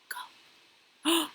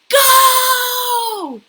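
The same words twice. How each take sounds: First: The word is spoken quietly. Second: The word is spoken very loudly. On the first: "He practiced it quietly" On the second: "very, very loud"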